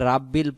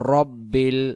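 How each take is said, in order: First: The first vowel is a long 'aa'. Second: The first vowel is a short 'a'. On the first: The speaker calls it wrong. "রয় আকার রা উচ্চারণ হবে না" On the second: The speaker calls it right. "শুধু র হবে"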